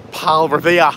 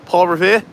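First: Said in the usual way. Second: Tentative Boston accent, rising on Revere; Boston accent try. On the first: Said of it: "how he says Paul Revere". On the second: Shown as a demonstration. Copying a viewer's Boston Revere for chat, unsure Boston accent. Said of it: "what accent I'm doing".

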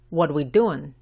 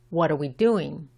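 First: "What we doing" with "are" dropped entirely; casual reduced form. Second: "are we" run together, the r gliding straight into the w; R blended into W. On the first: Teacher shows the less formal version, casually dropping "are". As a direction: informal "What we doing", running "what" straight into "we". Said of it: "que es mucho menos formal". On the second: Teacher models the standard question, "are we" blended together. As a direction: link "are" into "we" as one smooth sound. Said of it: "la R y la W se mezclan". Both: Shown as a demonstration.

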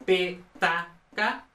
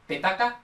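First: Petaca very slowly, broken into pe, ta, ca; syllable by syllable. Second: Said in the usual way. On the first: Shown as a demonstration. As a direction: spell out petaca in separate syllables. Mnemonic split into syllables. (petaca, sílaba por sílaba, muy despacio)

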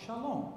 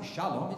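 First: "shalom" with LOM stressed; stress on final syllable. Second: "shalom" with stress on SHA; wrong-syllable stress. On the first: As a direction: lift the second syllable of "shalom". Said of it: "you put emphasis on the long". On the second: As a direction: lean on the first syllable of "shalom". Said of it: "But it's wrong". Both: Shown as a demonstration.

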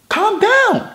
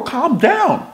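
First: Pitched way up, teasing; high mocking calm down. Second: Said in the usual way. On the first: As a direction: squeak it up high to mock. Repeats it far higher, mocking.

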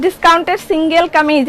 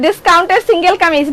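The two takes are said the same way.

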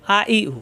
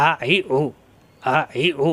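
First: আ, ই, উ as clean open vowels without throat squeeze; plain hamza vowels. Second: আ, ই, উ pressed from the middle of the throat; squeezed ain vowels. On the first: Teacher showing hamza for contrast, আ, ই, উ clean and unsqueezed. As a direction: start আ, ই, উ cleanly with no pressure. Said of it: "Hamza পেশ উ". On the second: Teacher showing ain to learners, আ, ই, উ with throat pressure. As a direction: tighten mid-throat on each of আ, ই, উ. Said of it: "এখানে একটু চাপ সৃষ্টি করতে হবে". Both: Shown as a demonstration.

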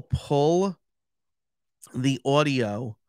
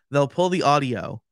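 First: "the audio" with a New York "aw" vowel in audio; New York accent. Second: Said in the usual way. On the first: Real, not acted. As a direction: say "the audio" like a New Yorker, ɔdioʊ. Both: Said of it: "my New York accent, accent just came out".

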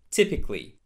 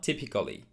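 First: TYPICALLY in three syllables, "TIP-ik-lee"; correct typically. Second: TYPICALLY in four syllables, "tip-i-kuh-lee"; mispronounced typically. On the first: Teacher modelling typically for learners, A left silent. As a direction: drop the A after C in "typically". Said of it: "very similar to these previous two". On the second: Teacher showing the mistake, typically with A sounded. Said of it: "not typically". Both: Shown as a demonstration.

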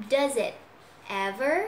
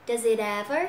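First: "Does it", a pause, then "ever" alone; separated words. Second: "it ever" run together without a break; linked sounds. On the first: Teacher takes learners through it, "ever" split off. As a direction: break clearly between "it" and "ever". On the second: Teacher shows learners the link, "it ever" joined. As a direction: carry the t of "it" into "ever". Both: Shown as a demonstration. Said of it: "chỗ này mình nối này".

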